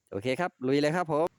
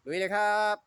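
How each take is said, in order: First: Said in the usual way. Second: Higher, bright rallying shout; higher-pitched hype call; hyped cheer. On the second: Real, not acted. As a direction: pump yourself up, let's go. Host repeats the rallying cry.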